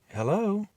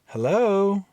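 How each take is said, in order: First: It is said at a normal, quiet volume. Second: It is said more loudly.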